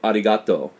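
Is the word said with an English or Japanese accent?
Japanese. It is said with a Japanese-sounding accent. The speaker calls it right.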